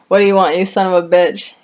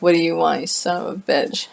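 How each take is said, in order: First: It sounds angry and forceful. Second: It sounds muttered and defeated.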